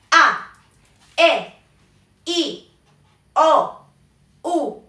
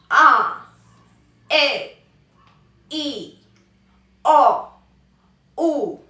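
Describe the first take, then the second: First: "A, E, I, O, U" short, sharp falls; angry fourth tone. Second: "A, E, I, O, U" longer, sagging falls; bored fourth tone. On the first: Teacher demonstrating the angry option, short falling vowels. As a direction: cut each vowel "A, E, I, O, U" off angrily. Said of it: "como enojado". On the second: Teacher demonstrating the bored option, drooping falling vowels. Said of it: "podemos hacerlo como aburridos". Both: Shown as a demonstration.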